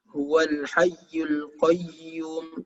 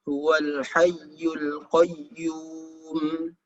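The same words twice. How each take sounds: First: The doubled consonant is cut short, not held. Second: The doubled consonant is held and swung. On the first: The speaker calls it wrong. "bertasydid itu tidak ditahan, bukan" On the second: The speaker calls it right. "Jadi dia diayunkan"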